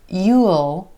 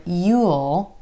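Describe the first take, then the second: First: It is said as a full contraction. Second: It is said as a full contraction.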